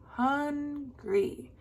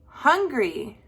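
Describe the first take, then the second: First: Hungry softly split as long HUN, then GRY; hungry in two drawn-out beats; broken into syllables. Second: Said in the usual way. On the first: Shown as a demonstration. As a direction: sound out hungry slowly, softer. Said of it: "break up the word". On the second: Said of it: "The next one is".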